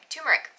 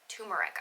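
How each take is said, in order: First: The first R sound is clearly pronounced. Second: The first R sound is left out. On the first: "how you're supposed to pronounce it" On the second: "I grew up not pronouncing the first R"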